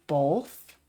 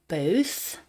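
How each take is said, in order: First: "both" said as "bolth"; own pronunciation with L. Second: Said in the usual way. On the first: Shown as a demonstration. Showing how I say "both", with added L. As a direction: slip an L before the th in "both". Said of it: "I say both". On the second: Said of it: "most people, I think, say both".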